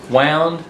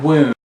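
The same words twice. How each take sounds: First: "wound" said as wownd, rhyming with sound; pronunciation demo. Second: "wound" said as woond, rhyming with spooned; pronunciation demo. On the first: Teacher showing the first reading of the word, "wound" said wownd. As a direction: say "wound" like the past of wind, wownd. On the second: Teacher contrasting the second reading of the word, "wound" as woond. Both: Shown as a demonstration. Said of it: "the word, uh, the word".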